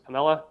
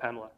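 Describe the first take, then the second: First: The name is pronounced the Italian way. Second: The name is pronounced the English way. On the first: "what's apparently the Italian pronunciation of Pamela" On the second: "people from the collaboration who happen to be Italian call it Pamela"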